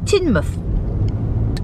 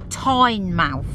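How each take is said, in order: First: The name is pronounced unlike its spelling. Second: The name is pronounced just as it is spelt. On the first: The speaker calls it right. "it's Teignmouth" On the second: The speaker calls it wrong. "spelt like Teignmouth, but it's not"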